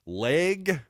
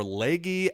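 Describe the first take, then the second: First: "Legge" as one syllable, silent final e; hesitant pronunciation. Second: "Legge" as two syllables, ending in "ee"; alternative pronunciation. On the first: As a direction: say "Legge" to rhyme with "leg". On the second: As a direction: say "Legge" to rhyme with "leggy". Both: Shown as a demonstration. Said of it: "not knowing how to pronounce that man's name".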